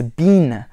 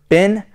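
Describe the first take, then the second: First: The vowel is long, like 'bean'. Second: The vowel is short, like 'bin'. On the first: The speaker calls it right. "it's bean" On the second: The speaker calls it wrong. "rather than bin"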